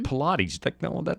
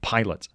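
First: The word has three syllables, ending in 'teez'. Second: The word has two syllables, like 'pilots'. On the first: It sounds pretentious. "That sounds like somebody's trying to be highfalutin" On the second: It is read plainly, as the spelling suggests. "It clearly says pilots"

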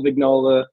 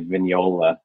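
First: The G is pronounced as a hard sound. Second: The G is silent, blending into a ny sound. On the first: "You could pronounce the G" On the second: "you could be fancy and say Vignola"

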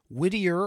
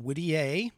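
First: The name is said with a plain English accent. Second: The name is said with a French accent.

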